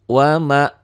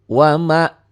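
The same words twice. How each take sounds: Both takes have the same delivery.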